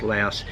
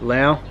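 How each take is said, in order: First: The name ends with an s sound. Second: The name ends without an s sound. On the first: This is how outsiders name the country. "the country is Laos" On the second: This is how locals name the country. "It is pronounced Lao"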